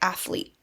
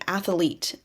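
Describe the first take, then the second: First: No vowel is added, giving two syllables. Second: An extra vowel is added, giving three syllables. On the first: The speaker calls it right. "instead of athlete" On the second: The speaker calls it wrong. "add sounds to words, such as saying athlete"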